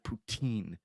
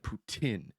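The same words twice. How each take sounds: First: The last syllable ends with a long 'een' sound. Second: The last syllable ends with a short 'in' sound. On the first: This is how western Canada says it. The speaker calls it wrong. "in the western part of Canada, they'll call it poutine. There's no E E N in there" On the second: This is how the east coast says it. The speaker calls it right. "here on the east coast of Canada, we pronounce it poutine because of the I N"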